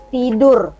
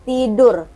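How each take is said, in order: First: The final r is clearly pronounced. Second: The final r is clearly pronounced.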